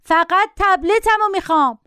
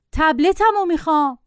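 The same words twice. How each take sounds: First: Put-on high-pitched, insistent boy's cry; mock child's shout, pitched way up. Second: Said in the usual way. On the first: A narrator's reading. Boy demanding his tablet from the passenger, shouting. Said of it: "داد زد". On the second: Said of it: "با صدای معمولی گفت".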